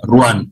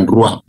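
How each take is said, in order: First: "ruan" ending clearly in N; correct spelling sound. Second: "ruap" said as the wrong version ending in p; wrong form. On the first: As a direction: stress the final n of "ruan". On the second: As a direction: say "ruap" as the rejected mistake. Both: Shown as a demonstration. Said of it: "Bukan B ya, pakai N ya".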